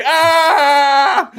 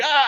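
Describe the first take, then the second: First: Loud high scream of panic; terrified scream. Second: The same scream, but faint as if heard from far away; long-shot scream. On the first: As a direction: scream at the steamroller close up. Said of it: "and he's like". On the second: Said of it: "you see it from the long shot". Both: Retold or imitated.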